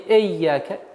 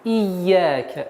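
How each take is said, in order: First: It begins with an 'e' vowel. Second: It begins with a clear 'i' vowel. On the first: The speaker calls it wrong. "Не эйяка" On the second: The speaker calls it right. "Четкое, ясное произношение звука и"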